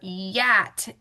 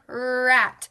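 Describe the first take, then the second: First: The word begins with a Y sound. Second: The word begins with an R sound. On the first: The speaker calls it wrong. "or yat" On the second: The speaker calls it right. "Remember, where's our tongue?"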